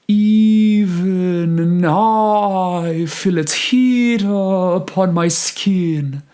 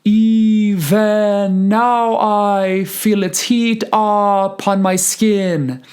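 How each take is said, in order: First: High, smooth slow sung phrase with unstressed "-ven" in Even and "u-" in upon; sung with reduced vowels. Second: High, slow sung line with full open vowels in Even and upon; sung with wrong emphasis. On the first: Choir teacher showing IPA choices, sung as an uninterrupted phrase. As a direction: sing it slowly, short i in the second syllable of Even, schwa opening upon. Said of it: "not gonna interrupt that phrase as much".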